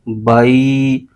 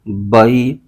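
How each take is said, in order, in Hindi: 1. ग्लाइड को लंबा खींचा गया है। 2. ग्लाइड नरम है, न झटका दिया गया, न खींचा गया। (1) "हरूफ लीन को लंबा खींच देते हैं" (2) "बगैर खींचे, बगैर झटका दिए नरमी से"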